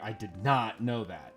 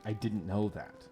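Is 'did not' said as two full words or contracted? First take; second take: full; contracted. First: Did not is said in full with emphasis. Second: The words are contracted to didn't, unstressed. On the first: It forces a very specific, marked line reading. The speaker calls it wrong. "Did not is like a weird. That's a weird emphasis" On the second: It sounds like an ordinary, natural remark. The speaker calls it right. "in English and in Western English, I think you would say something like"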